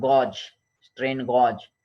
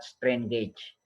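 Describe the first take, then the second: First: GAUGE said with an open "aw" vowel, like "gawj"; "gauge" rhymed with "lodge", drawn out slowly; alternative pronunciation. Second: GAUGE said with a long "ay", like "gayj"; "gauge" rhymed with "cage"; speaker's own pronunciation. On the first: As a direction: say gauge as "gawj", as some people do. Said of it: "Someone might be pronounced, uh, like that". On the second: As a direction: say strain gauge so both words share the "ay" vowel. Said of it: "my pronunciation is like that". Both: Shown as a demonstration.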